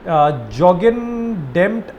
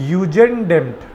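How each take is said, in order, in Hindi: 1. शब्द की शुरुआत J की आवाज़ से होती है। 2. शब्द की शुरुआत Y की आवाज़ से होती है। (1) "हम इसको प्रोनाउंस करेंगे इंडिया के हिसाब से" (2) "जे को ना वो लोग प्रोनाउंस नहीं करते, तो वो इसको यू से प्रोनाउंस करते हैं"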